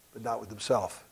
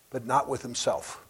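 No difference in how they are said.

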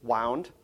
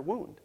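First: "Wound" with an ow vowel; "Wound" rhyming with found. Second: "wound" with an oo vowel; "wound" as woond. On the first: Teacher gives the winding reading, "Wound" as wownd. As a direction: say "Wound" as past tense of wind. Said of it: "past tense of wind". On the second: Teacher gives the other reading, "wound" as woond. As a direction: say "wound" like an injury. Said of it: "past tense of wind or wound". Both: Shown as a demonstration.

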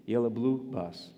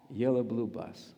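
No difference in how they are said.

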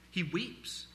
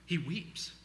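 No difference in how they are said.

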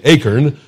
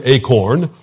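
First: "acorn" said the Texas way, as AY-kern; Texas pronunciation. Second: "acorn" said the Canadian way, as AY-korn; Canadian pronunciation. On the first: Preacher owning up to last week's accent, "acorn" as Texan AY-kern. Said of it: "in such a strange Texas accent". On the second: Preacher showing he is bilingual, "acorn" as Canadian AY-korn. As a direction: give "acorn" a full "corn" ending, Canadian style. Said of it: "the Canadian word is". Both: Shown as a demonstration.

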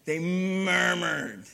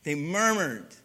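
First: MURMURED stretched very long; drawn-out murmured. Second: Said in the usual way. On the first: Shown as a demonstration. Preacher savoring an ugly word, murmured drawn out slowly. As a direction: linger slowly on murmured, dragging its sound. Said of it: "It just sounds kinda, ugh".

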